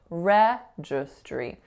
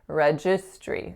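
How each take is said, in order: First: The stress is on the first syllable. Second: The stress is on a later syllable. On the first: The speaker calls it right. "the winning syllable in this word is the first" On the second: The speaker calls it wrong. "what I was saying was registry"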